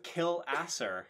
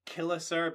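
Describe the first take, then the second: First: Killasser split as "kill asser"; spelling pronunciation. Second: Killasser run together with a weak middle syllable; guessed local pronunciation. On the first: Host settles on spelling, Killasser said as "kill asser". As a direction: say Killasser as written, a full "ass" in the middle. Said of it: "That's how it's spelled". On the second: Host guesses an Irish place name, Killasser with reduced middle. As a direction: say Killasser as one word, "KILL-uh-ser". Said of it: "I'm sure it's pronounced like". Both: Shown as a demonstration.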